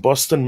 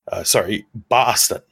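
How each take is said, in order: First: The word is said in a neutral accent. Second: The word is said in a Boston accent.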